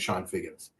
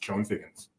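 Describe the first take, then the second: First: The first name sounds like 'Shawn'. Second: The first name is read as spelled, 'Chone'. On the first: The speaker calls it right. "I know his name is Sean Figgins" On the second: The speaker calls it wrong. "every time I saw it, he was Sean Figgins"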